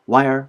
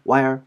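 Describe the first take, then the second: No difference in how they are said.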